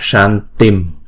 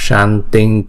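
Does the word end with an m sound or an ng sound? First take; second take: m; ng. First: The word ends with an m sound. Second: The word ends with an ng sound. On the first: The word stands on its own. "chữ này đứng một mình đọc là san tim" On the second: The word is followed by a k sound. "vì theo sau đọc liền là cờ, chữ cờ, cho nên là chúng ta đọc là san tinh kuru"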